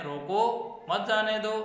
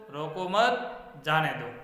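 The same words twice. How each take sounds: First: "रोको", a short break, then "मत जाने दो" in one run; pause after रोको. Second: "रोको मत" together, a break, then "जाने दो"; slowly, breaking the sentence after "मत"; pause after मत. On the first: Teacher contrasts two readings of one sentence, pausing after "रोको". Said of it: "एक ही वाक्य में". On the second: Teacher contrasts two readings of one sentence, pausing after "मत". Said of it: "विराम चिन्ह का प्रयोग मत के बाद किया है". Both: Shown as a demonstration.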